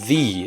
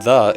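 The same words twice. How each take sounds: First: It is said exaggerated, following the spelling. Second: It is said in a relaxed, everyday way. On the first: This pronunciation is made to match the spelling. "exaggerating the pronunciations" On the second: This is the usual conversational pronunciation. "it's not the"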